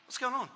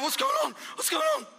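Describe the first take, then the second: First: Softer, quietly confused "What's going on?"; a quiet, bewildered "What's going on?"; puzzled murmur. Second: Much higher, shouted "What's going on?"; a startled cry of "What's going on?"; panicked shout. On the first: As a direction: ask it half to yourself. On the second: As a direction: yell it in alarm, twice. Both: Retold or imitated. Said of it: "I was like".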